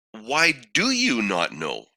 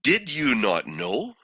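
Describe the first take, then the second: First: Slow "Why do you not know?" with the tune falling on "know"; accountability challenge. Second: Slow "Did you not know?" with the tune rising on "know"; questioning challenge. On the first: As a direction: lean on "you" in "Why do you not know?", then drop the ending. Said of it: "Or could he have said". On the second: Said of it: "placed his parents on the stand". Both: Acted.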